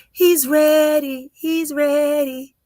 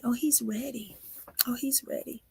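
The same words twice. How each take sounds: First: Slow, loud, high declaration; proclaiming. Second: Softer, reverent murmur; hushed. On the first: Reader proclaiming the baby is ready, loud and slow. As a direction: announce it with full force, stretching it. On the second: Reader sensing the baby's destiny, hushed and softer. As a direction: say it quietly, almost to yourself. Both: Real, not acted. Building prophecy about the baby.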